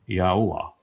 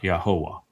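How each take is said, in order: First: Four separate sounds are kept distinct. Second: The sounds are blended together. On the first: The speaker calls it right. "There's four distinct sounds from the four different letters, and you don't blend them together" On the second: The speaker calls it wrong. "not Yahovah"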